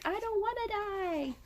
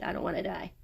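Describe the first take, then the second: First: High, soft frightened plea; mock terrified whimper. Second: Said in the usual way. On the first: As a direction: beg for your life in a thin high voice. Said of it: "he's like". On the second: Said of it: "that's what he said".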